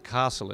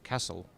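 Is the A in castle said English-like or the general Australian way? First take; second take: English-like; general Australian. First: The A is said in an English-like way. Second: The A is said the general Australian way. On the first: The speaker is from South Australia. "a bit of an English accent, particularly the A in castle" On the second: The speaker is from another part of Australia. "other people in other areas say castle"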